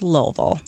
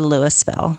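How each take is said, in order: First: It is said the way locals say it. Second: It is said another way outsiders say it. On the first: The speaker calls it right. "It's pronounced Louisville" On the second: The speaker calls it wrong. "or Louisville"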